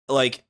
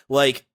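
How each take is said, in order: The two takes are said the same way.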